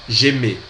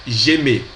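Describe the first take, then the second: Both takes have the same delivery.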